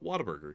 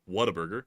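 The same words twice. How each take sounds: First: The start sounds like the word 'water'. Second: The start sounds like the separate words 'what a'. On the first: "like water, like water burger" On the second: "I don't call it Whataburger"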